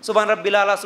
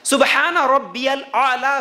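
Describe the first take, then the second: First: The phrase is rushed and blurred together. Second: The phrase is said slowly and clearly. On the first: The speaker calls it wrong. "क्या बोलते पता ही नहीं चलता" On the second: The speaker calls it right. "इस तरह सजदे में तीन मरतबा"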